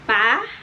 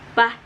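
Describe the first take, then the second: First: The pitch rises like a question. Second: The pitch is short and low. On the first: "kayak misalkan kalian bertanya aja kepada seseorang" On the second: "lebih pendek dan biasanya lebih rendah"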